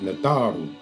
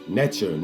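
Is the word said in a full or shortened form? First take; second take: full; shortened. First: The word is said in its full form. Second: The word is said in a shortened form. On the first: The speaker calls it right. "Natharu is the proper pronunciation" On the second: The speaker calls it wrong. "that's more watered down"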